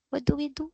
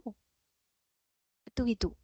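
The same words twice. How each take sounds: First: Said in the usual way. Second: "What do we do?" much softer and very slow; slow hushed rhetorical question; soft slow repeat. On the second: Shown as a demonstration. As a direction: let the question sink in quietly.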